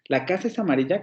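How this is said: It is said with a doubtful, hesitant intonation. The speaker is unsure whether it is so. "lo puedo plantear como una duda"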